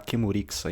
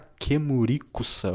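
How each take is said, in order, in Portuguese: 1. A sílaba 'ku' do meio é reduzida, emendando em 'sa'. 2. Todas as sílabas, incluindo o 'ku' do meio, são totalmente pronunciadas. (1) "eles falam lá Kemurixa" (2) "Aqui tá Kemurikusa"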